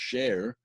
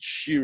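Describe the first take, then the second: First: The vowel sounds like 'air'. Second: The vowel sounds like 'ear'. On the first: It means chain. "instead of meaning chain when it's pronounced share" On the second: It means all masters of song. "when you pronounce it shear, it means all masters of song"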